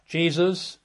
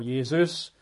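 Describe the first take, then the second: First: "Jesus" with an English J sound at the start; "Jesus" as JEE-zus; English pronunciation. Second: "Jesus" with a Y sound at the start; Greek-style pronunciation. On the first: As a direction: say "Jesus" the usual English way, opening on a J. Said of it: "or Jesus". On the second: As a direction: say "Jesus" as YEH-soos. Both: Shown as a demonstration.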